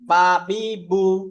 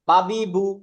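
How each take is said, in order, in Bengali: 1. স্বরধ্বনিগুলো টেনে দীর্ঘ করে বলা হয়। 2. স্বরধ্বনিগুলো ছোট এবং তাড়াতাড়ি বলা হয়।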